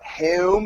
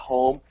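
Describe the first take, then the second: First: Home is said with a Philadelphia accent vowel. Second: Home is said with a standard accent vowel.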